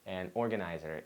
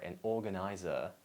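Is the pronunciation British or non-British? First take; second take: non-British; British. First: It is said with a non-British pronunciation. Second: It is said with a British pronunciation.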